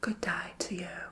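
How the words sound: It is said in a put-on Australian-sounding accent.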